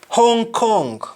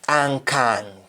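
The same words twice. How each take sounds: First: It is said in an English accent. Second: It is said in a Jamaican accent.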